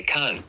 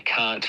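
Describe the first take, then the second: First: "can't" ending in a glottal stop after the N; glottal stop demo. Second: "can't" with a clear released T. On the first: Teacher showing a glottalized T. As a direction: stop the air in the throat right after the N. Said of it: "you hear the air stop the N". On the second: Teacher demonstrating a released T. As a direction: let the T pop at the end of "can't". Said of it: "with the release T". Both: Shown as a demonstration.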